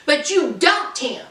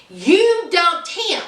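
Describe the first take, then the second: First: Said in the usual way. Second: Each word of You dumped him laid down slowly and firmly; a slow, pointed reproach; slow emphatic repeat. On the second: Real, not acted. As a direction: spell it out slowly to her face. Repeats it with weight.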